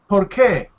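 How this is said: The two words run together as one. The speaker calls it right. "it sounds like one word"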